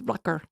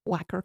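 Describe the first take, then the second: First: It is pronounced the German way. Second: It is pronounced the way Americans say it. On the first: The speaker calls it right. "It's not. It's Wacker" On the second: The speaker calls it wrong. "Everybody here pronounces it"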